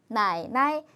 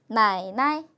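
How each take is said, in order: Both takes have the same delivery.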